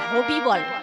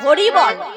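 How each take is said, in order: First: The first word is said with b instead of r. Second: The first word is said clearly with an r. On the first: It sounds like a different person's name. The speaker calls it wrong. "আর আমি যদি ডাকি হবি বল" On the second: The name is called properly. The speaker calls it right. "নাম আছে হরি বল।"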